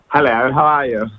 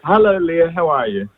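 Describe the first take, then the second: First: It is said in a put-on impression voice. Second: It is said in his own natural voice.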